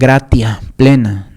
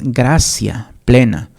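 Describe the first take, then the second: First: The middle consonant sounds like a plain t. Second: The middle consonant sounds like ts or s. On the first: The speaker calls it wrong. "no se pronuncia gratia" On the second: The speaker calls it right. "es gracia plena eh, precisamente por las normas del latín"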